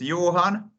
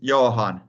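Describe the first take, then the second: First: The name is said with its original Swedish sounds. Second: The name is said letter by letter, Finnish-style. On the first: "my name also in root, it's Johan" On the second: "when Finnish pronounce it as it's written"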